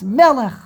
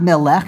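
First: The stress is on the first syllable. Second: The stress is on the last syllable. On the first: The speaker calls it right. "this word you should pronounce melech" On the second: The speaker calls it wrong. "So it's not melech"

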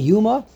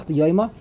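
First: The first vowel is a plain 'oo' sound. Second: The first vowel is an 'oy' diphthong. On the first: This is the customary yeshiva pronunciation. "The way we say in the Yeshiva world is Yuma" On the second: This is the grammatically correct pronunciation. "the correct grammatical way to pronounce the Masechta is Masechta Yoyma"

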